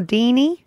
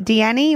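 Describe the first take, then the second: First: "Deanie" said as DEE-nee, two syllables; alternative name pronunciation. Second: "Deanie" said as dee-AN-ee, three syllables; alternative name pronunciation. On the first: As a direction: say "Deanie" to rhyme with "genie". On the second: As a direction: stretch "Deanie" into "Dee-Annie". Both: Shown as a demonstration. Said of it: "Is that how I say it?".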